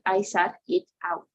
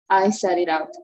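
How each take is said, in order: First: Each word is said separately with breaks. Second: The words are linked smoothly without breaks. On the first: The speaker calls it wrong. "It's not like a separation" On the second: The speaker calls it right. "you have to do it fluently"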